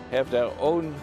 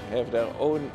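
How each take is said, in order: Both takes have the same delivery.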